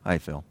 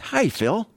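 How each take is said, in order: First: The greeting sounds cold and uninviting. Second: The greeting sounds warm and inviting.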